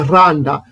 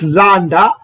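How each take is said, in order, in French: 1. Le mot commence par un son r. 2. Le mot commence par un son l. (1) "on ne dit pas randa" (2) "le R a le son du L"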